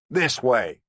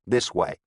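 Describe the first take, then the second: First: Commanding. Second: Said in the usual way. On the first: A narrator's reading. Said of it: "he commanded".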